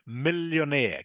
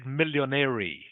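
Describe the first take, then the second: First: The word ends with a plain 'air' sound. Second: The word ends with an extra 'ee' sound. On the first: The speaker calls it right. "It's millionaire" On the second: The speaker calls it wrong. "you said millionary, which is not correct"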